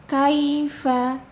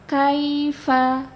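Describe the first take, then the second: Both takes have the same delivery.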